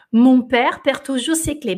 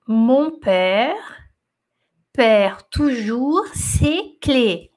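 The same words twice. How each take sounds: First: Said in the usual way. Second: "Mon père perd toujours ses clés" drawn out slowly, word by word. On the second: Shown as a demonstration. Teacher reading the sentence to students, very slowly. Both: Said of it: "Vou falar devagarzinho".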